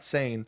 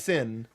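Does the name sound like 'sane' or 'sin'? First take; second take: sane; sin. First: The name has a long vowel, like 'sane'. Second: The name has a short vowel, like 'sin'. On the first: The speaker calls it wrong. "not not Sane" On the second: The speaker calls it right. "it's Sin"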